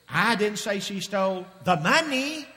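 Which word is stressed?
money. The word money carries the main stress. She stole something other than money. "if she didn't steal the money, what did she steal?"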